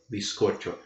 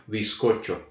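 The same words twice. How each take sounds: First: The z is pronounced like an s. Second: The same.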